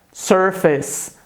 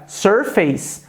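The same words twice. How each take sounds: First: "surface" with a short reduced second syllable; correct pronunciation. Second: "surface" with face said like the word face; showing the common student mistake; wrong pronunciation. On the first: Teacher models the correct pronunciation, clearly. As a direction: say "surface" the right way, not like face. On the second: Teacher shows wrong reading, face sound. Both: Shown as a demonstration. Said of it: "a pronúncia correta dessa palavra é surface".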